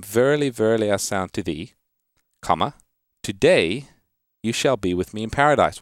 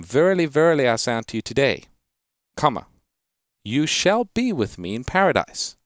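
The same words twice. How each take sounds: First: "Verily, verily, I say unto thee," then a pause, then "today" lifted to open the next phrase; comma before today. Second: "I say unto you today," held together, then a pause before "you shall be with me in paradise"; higher, ringing "Verily, verily", break after "today"; comma after today. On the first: Radio pastor reads the verse to a caller, pausing before "today". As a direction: break after "thee" so "today you shall be with me in paradise" runs together. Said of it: "it's read this way".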